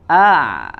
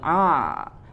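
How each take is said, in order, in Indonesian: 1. Bunyinya mengalir dari tenggorokan, bukan dari hidung. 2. Bunyinya didorong keluar lewat hidung. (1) "Makhrajnya sama dengan huruf h" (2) "huruf ain tidak ditekan makhrajnya dari hidung ya. Jadi bukan a"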